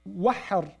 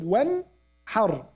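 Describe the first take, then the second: First: The n is dropped before the h sound. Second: The n and the h are both said clearly. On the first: The speaker calls it wrong. "They don't say wahhar" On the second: The speaker calls it right. "They say noon clearly and the ha clearly"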